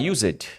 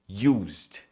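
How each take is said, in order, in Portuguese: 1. A terminação é pronunciada como uma sílaba extra. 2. A terminação é unida, sem sílaba extra.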